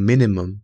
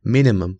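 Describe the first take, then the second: No difference in how they are said.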